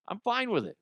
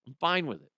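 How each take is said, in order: First: Sing-song high. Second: Said in the usual way. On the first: Real, not acted.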